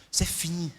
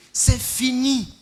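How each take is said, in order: First: Said in the usual way. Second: "C'est fini" stretched out slowly and louder; slow, drawn-out final word. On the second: Shown as a demonstration. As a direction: let "C'est fini" land slow and heavy, closing the matter.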